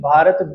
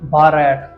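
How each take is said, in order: First: The last syllable has a short 'uh' vowel. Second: The last syllable sounds like the word 'rat'. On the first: This is the native name. The speaker calls it right. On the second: English speakers might say it this way. The speaker calls it wrong.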